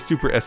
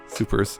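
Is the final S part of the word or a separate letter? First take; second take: separate letter; part of word. First: The final S is said as a separate letter. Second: The final S is joined onto the word. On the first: The speaker calls it wrong. "you're saying it wrong" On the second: The speaker calls it right. "just supers"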